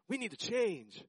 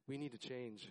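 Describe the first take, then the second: First: It is said in an eager, upbeat way. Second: It is said in a sad, lamenting way.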